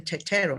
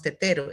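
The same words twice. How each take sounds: First: Tetero said as "cheh-cheh-ro", the t sounds turned to ch; their way of saying it. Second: Tetero with a plain Spanish t, "teh-teh-ro"; our way of saying it. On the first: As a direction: make the t's in tetero into ch sounds. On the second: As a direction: say tetero with clean t sounds. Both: Shown as a demonstration. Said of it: "por qué ellos dicen tetero y no tetero".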